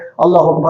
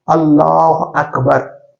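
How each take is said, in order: First: It is recited quickly, without pausing to breathe. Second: It is recited slowly, one full breath each.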